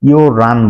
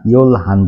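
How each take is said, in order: First: The h drops and l becomes r. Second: An l and a clear h are both heard. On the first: The speaker calls it right. "ইয়ো রান বলবে" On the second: The speaker calls it wrong. "কোরিয়ানরা কখনোই এগারোটাকে ইয়োল হান বলবে না"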